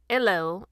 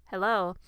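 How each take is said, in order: First: Lightly imitated British accent, initial h softened; fake British accent. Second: Said in the usual way. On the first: Meghan Markle greeting her podcast guest, mock British accent. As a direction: attempt a slight British "'ello". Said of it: "in a British accent, s-, or what she was trying to portray". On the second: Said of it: "the Good Place actress said at the start of the show".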